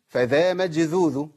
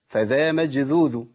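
No difference in how they are said.

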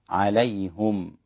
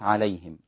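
First: The h is followed by a u vowel. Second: The h is followed by an i vowel.

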